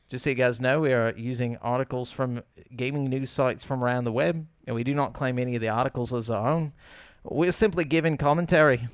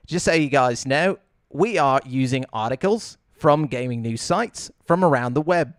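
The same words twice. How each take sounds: First: Slipping lightly into British or Australian; accidental hint of a British accent; British slip. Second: Mock Australian with phrase endings lifted; Australian upspeak. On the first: Real, not acted. Host reading the news disclaimer, slipping into British. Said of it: "I just went British and said articles". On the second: Shown as a demonstration. Host redoing the news disclaimer, demonstrating Australian upspeak. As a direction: redo it in rising Australian upspeak. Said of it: "make your voice go up".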